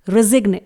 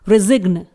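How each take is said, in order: First: A hard g sound is heard before the n. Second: The same.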